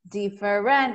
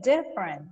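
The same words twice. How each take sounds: First: The stress falls on a later syllable. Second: The stress falls on the first syllable. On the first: The speaker calls it wrong. "It is not different" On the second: The speaker calls it right. "It is different"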